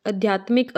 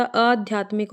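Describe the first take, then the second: First: आध्यात्मिक with short opening "a"; wrong vowel demo. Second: आध्यात्मिक with long opening "aa"; correct vowel demo. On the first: Teacher shows the mistake, आध्यात्मिक with short first vowel. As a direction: say आध्यात्मिक as "adh-yaatmik". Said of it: "अ नहीं होता". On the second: Teacher corrects it, आध्यात्मिक with long first vowel. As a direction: say आध्यात्मिक as "aadh-yaatmik". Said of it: "आ आएगा". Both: Shown as a demonstration.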